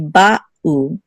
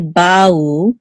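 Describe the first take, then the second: First: A slight pause separates the two syllables. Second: The two syllables flow together without a break. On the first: The speaker calls it right. "there should be a distinct um pause between the two syllables" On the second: The speaker calls it wrong. "We don't want to say bau"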